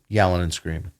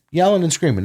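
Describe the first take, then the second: First: Said in the usual way. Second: Yelling hit high and hard; Yelling and screaming with real emphasis; stress on Yelling. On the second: Shown as a demonstration. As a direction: punch the word Yelling, higher. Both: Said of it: "not just talking".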